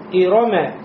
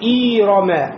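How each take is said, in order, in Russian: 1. Все гласные короткие и быстрые. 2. Первая гласная растянута. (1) "читается быстро" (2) "как будто после хамза появилась буква я"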